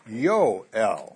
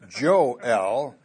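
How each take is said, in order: First: The name begins with a Y sound. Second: The name begins with a J sound. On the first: The speaker calls it right. "You have to say Yoel. So Yoel is probably the right pronunciation" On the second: The speaker calls it wrong. "So you can't say Joel"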